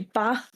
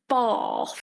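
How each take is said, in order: First: Said with a short northern 'a' vowel. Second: Said with a long southern 'a' vowel. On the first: This is how the speaker normally talks. "I say bath" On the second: This is not how the speaker normally talks. "I do not say bath"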